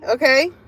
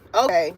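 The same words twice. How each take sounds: First: It is said in an admiring, approving tone. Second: It is said in a dismissive, unconvinced tone. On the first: The listener is impressed by the other person. "you look good. You're doing good" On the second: The listener doesn't believe it but won't argue. "Basically, believe what the fuck you want"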